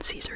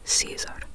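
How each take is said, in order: First: The name is said with an English pronunciation. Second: The name is said with a Spanish pronunciation. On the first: This is how outsiders at school referred to him. The speaker calls it wrong. "Caesar as in Caesar salad" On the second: This is the version he feels more at home with. The speaker calls it right. "the Spanish pronunciation ... The emphasis is on the E"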